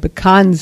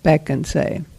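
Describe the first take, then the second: First: The stress is on the middle syllable. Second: The stress is on the first syllable. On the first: "They're going to put the accent on the middle syllable" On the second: "We put the accent on the first syllable"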